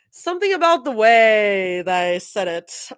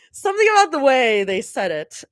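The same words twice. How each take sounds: First: Something about the way they said it, whispered with no voice; whispered take. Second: Said in the usual way. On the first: Shown as a demonstration.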